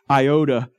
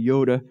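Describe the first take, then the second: First: The word is pronounced the English way. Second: The word is pronounced the Greek way. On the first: "which is the way we pronounce it" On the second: "but the Greek would say yoda"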